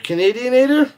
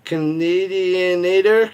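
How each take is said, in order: First: Canadianator asked much higher and louder; incredulous repeat; puzzled question. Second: Slow, careful sounding-out of Canadianator; trying to get the word out. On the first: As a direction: toss Canadianator up high in disbelief. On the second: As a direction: spell Canadianator out syllable by syllable, slowly. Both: Shown as a demonstration. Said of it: "I can't even say it".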